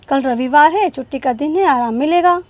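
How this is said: The clauses run on with only short pauses. The speaker calls it wrong. "अगर हम अर्धविराम का उपयोग नहीं करते तो हम कैसे बोलते हैं"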